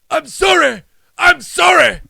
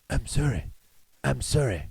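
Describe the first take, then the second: First: It is said loudly and emphatically. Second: It is said quietly and calmly.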